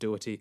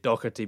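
First: The name is said the common way. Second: The name is said the Scottish way. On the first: This is how most people, including the director, say it. "but people pronounce it Doherty, including himself" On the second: This is how a Scottish speaker would say it. "I would say it Dougherty, being Scottish"

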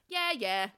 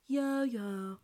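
First: It is said without sadness. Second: It is said sadly.

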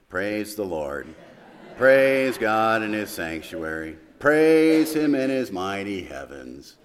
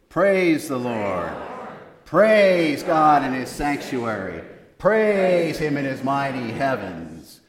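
First: It is said gloomily, like Eeyore. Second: It is said with lively enthusiasm.

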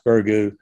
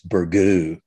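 First: The word is said in a plain, local way. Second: The word is said in a French-sounding way. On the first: This is the ordinary way people say it. The speaker calls it right. "It is pronounced Burgoo" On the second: The speaker is putting on airs. The speaker calls it wrong. "It's Burgoo, which is more French"

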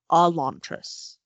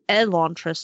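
First: The name begins with an 'ah' vowel. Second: The name begins with an 'eh' vowel. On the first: The speaker calls it wrong. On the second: The speaker calls it right. "It was an E"

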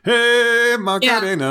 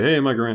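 First: It is said in the song's shouted style. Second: It is said plainly, in a normal voice.

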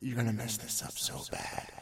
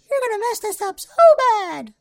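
First: It is said in his normal voice. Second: It is said in a Mickey Mouse voice.

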